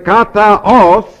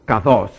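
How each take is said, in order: First: The a and o vowels are said separately. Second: The vowels are merged into one shorter word. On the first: The speaker calls it wrong. "instead of having to say kataos, see, because you're verbally, you're on a ah sound, then you have to go to an o sound" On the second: The speaker calls it right. "they just simply contracted it, and they made it like this"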